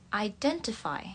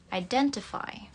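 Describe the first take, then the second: No difference in how they are said.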